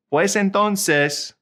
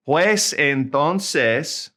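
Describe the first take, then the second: First: "pues entonces" said higher and slowly; higher model take. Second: "Pues entonces" drawn out slowly; slow model word. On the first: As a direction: lift the pitch on "entonces". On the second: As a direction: stretch "Pues" for learners to copy. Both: Shown as a demonstration.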